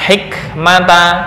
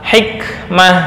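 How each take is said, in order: First: The word ends with a t and a vowel. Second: The word ends with an h sound. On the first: This is the form read without stopping. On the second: This is the form read when stopping.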